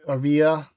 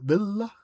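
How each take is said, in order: First: Villa with an English double L, VIL-uh; American accent Spanish. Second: Villa said the Spanish way, VEE-ya; Spanish pronunciation. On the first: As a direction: Anglo way to say Villa, L sounded. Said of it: "I'm saying it like a gringo". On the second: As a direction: Villa corrected, no L sound. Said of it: "I should be saying the Villa". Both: Shown as a demonstration.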